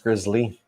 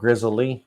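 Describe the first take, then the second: First: It is said in a plain, neutral accent. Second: It is said with a rural Southern twang. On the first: The speaker calls it right. "But I think it's grizzly" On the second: The speaker calls it wrong. "when I say it with my redneck tone"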